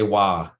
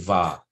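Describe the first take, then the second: First: The syllable starts with a w sound. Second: The syllable starts with a v sound. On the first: The speaker calls it wrong. "they might say wa" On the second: The speaker calls it right. "but it's actually va"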